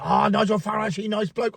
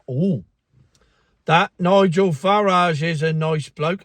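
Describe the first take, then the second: First: Light imitation of a Chinese accent, clipped "he nice bloke"; mock Chinese accent. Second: Said in the usual way. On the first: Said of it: "I did the accent". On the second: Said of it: "Oh, I did it".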